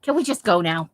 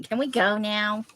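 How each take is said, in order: First: Louder, mock-exasperated partner. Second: Put-on slow, drawn-out teenager plea; whiny teenager. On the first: A long-together couple wanting to leave, exasperated. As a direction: say it like one half of a fed-up couple. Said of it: "couples who are exasperated with". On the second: Thirteen-year-old asking to leave, mock teenage impatience. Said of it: "like, a thirteen-year-old thing to say".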